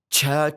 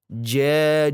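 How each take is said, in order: First: The j sounds like a full ch. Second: The j has a slight hiss. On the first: The speaker calls it wrong. "Ini juga salah. Jauh lebih fatal ini" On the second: The speaker calls it right. "jim itu ada sedikit suara mendesis"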